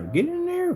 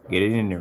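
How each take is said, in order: First: Very high falsetto squeal; playful squeak. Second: Said in the usual way. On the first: Pretend. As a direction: flip up into a silly high voice. Same words, usual then squeaky.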